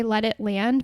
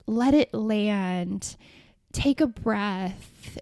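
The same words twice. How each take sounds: First: Said in the usual way. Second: Slow, hushed parody of AI calm; drawn-out fake-gentle coaching, mocking it; mock soothing. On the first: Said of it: "I might say". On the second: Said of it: "phrases like".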